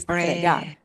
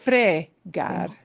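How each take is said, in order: First: The stress is on the last syllable. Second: The stress is on the first syllable. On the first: The speaker calls it right. "It'll be fregar. ... put more punch on the end" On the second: The speaker calls it wrong. "it won't be fregar"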